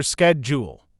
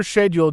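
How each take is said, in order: First: "schedule" the American way, opening with sk; American pronunciation. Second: "schedule" the British way, opening with sh; British pronunciation. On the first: English teacher showing learners American schedule, starting with sk. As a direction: say "schedule" as American sked-jool. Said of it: "In American English, you'll often hear". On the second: English teacher showing learners British schedule, starting with sh. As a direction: say "schedule" as British shed-yool. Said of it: "In British English, you may hear". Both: Shown as a demonstration.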